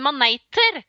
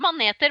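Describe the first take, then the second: First: The second syllable has a diphthong. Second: The second syllable has a plain vowel. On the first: It names the red and blue stinging kind with long tentacles. "uttaler det med en diftong til slutt der" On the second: It names jellyfish in general. "det heter maneter"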